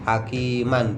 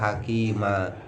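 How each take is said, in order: First: The word ends with a short a and n. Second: The word ends with a long a vowel. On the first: The reading continues without a stop. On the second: The reader stops at this word.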